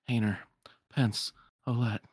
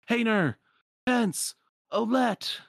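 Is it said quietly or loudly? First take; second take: quietly; loudly. First: It is said quietly under the breath. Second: It is yelled out loudly.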